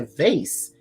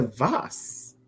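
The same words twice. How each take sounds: First: "vase" rhyming with "face"; American pronunciation. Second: "vase" said as "vahs", drawn out; corrected pronunciation. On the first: Retelling a friend's shop talk, American pronunciation of "vase". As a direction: say "vase" with a long AY and an S ending. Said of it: "It's a vase". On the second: Customer correcting a store worker, "vase" as "vahs". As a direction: say "vase" with a broad AH instead of AY. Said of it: "it's like tomato, tomato". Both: Retold or imitated.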